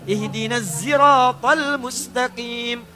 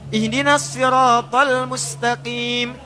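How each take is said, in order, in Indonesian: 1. 'Sirat' diawali dengan bunyi z. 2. 'Sirat' diawali dengan bunyi s tebal.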